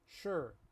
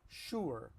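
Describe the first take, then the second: First: It is said with relaxed, barely moving lips. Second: It is said with full, careful lip rounding. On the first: This is how people really say it. "We all say sure" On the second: This is the standard form. "it's pronounced in standard English sure"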